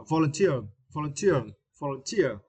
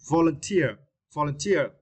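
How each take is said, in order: First: Volunteer with teer stressed, falling; volunteer, weight on TEER. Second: Said in the usual way. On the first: Shown as a demonstration. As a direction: say vol-un-TEER. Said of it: "stress the third syllable". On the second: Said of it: "the word, uh".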